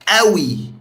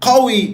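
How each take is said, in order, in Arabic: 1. تبدأ بهمزة. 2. تبدأ بصوت 'q' عميق. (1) "في اللهجة المصرية" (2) "ستاندرد"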